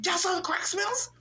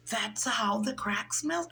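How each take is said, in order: First: Higher, rising disbelief on smells; incredulous question. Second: Said in the usual way. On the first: Retold or imitated. The naive speaker echoes her friends in higher surprised disbelief. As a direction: ask it back in disbelief. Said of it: "I was like". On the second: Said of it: "They're like".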